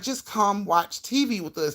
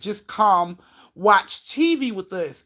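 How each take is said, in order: First: It is said in a calm, coaxing tone. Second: It is said in an aggressive, threatening tone.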